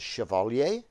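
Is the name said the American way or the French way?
French. The name is said with a French pronunciation. This is the original pronunciation of the name. "The proper French pronunciation is Chevalier"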